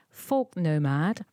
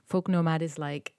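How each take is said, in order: First: Slow clear name. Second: Said in the usual way. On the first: Shown as a demonstration. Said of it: "Folk nomad is like, it's her".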